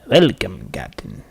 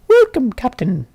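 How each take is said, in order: First: The voice is lower and not squeaky. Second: The voice is high and squeaky.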